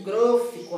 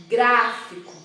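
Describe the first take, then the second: First: "grófico" with the first vowel closed and rounded. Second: "gráfico" with a wide-open stressed á; open vowel. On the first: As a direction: mispronounce gráfico as "grófico", closing the stressed vowel. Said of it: "com som fechado". ("grófico" com som fechado na primeira vogal) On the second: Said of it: "percebe que o som é aberto". ("gráfico" com som aberto, á bem aberto) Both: Shown as a demonstration.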